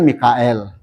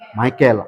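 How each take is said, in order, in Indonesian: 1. Nama itu diucapkan seperti mee-ka-el. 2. Nama itu diawali dengan bunyi 'my'. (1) "Kalau Indonesia kan Mikael" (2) "Tapi kalau orang luar negeri, My, Michael"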